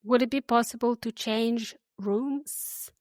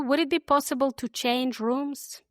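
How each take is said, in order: First: Slow, clear model sentence; said slowly. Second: Said slowly. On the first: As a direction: drag it out gently for learners to repeat. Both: Shown as a demonstration. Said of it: "I'll say them slowly".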